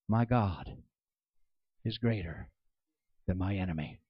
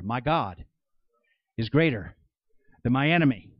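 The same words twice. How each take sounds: First: It is said quietly, under the breath. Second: It is said more loudly.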